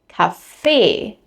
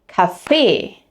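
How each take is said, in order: First: The stress is on the second syllable. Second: The same.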